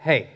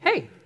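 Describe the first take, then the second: First: It is said with a tired, deflated sigh. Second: It is said in a normal, upbeat way.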